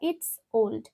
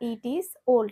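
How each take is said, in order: First: 'It is' is contracted into one syllable. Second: 'It is' is said as two full words. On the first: "ইট ইজ old বা ইটস old" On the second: "ইট ইজ old বা ইটস old"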